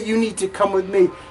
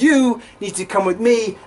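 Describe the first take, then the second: First: It is said quietly. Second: It is said loudly.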